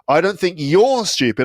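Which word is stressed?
you're. The stress falls on the word you're. Other people are the stupid ones. "I think they're stupid"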